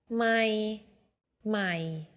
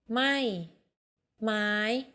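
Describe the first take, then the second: No difference in how they are said.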